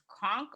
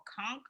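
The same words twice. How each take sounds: First: Conch said "konk", vowel as in honk; hard K ending on conch, open AH vowel. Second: Conch said "kunk", vowel as in trunk; hard K ending on conch, short UH vowel. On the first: Unsure of a shellfish's name, conch said as "konk". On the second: Second guess at a shellfish's name, conch said as "kunk". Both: Real, not acted.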